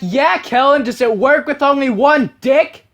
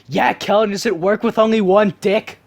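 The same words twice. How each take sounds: First: It is said very loudly. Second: It is said at normal volume.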